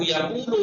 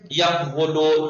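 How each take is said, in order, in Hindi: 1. q के ठीक बाद लंबा u आता है। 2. q के बाद एक अलग w-अक्षर बोला जाता है। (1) "आसान हो गया तलफ़्फ़ुज़ में" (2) "कैसे सख्त लग रहा है बोलने में"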